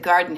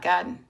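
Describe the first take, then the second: First: It is said without a Boston accent. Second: It is said in a Boston accent. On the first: The speaker has been away from Boston for years. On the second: A local Bostonian would say it this way.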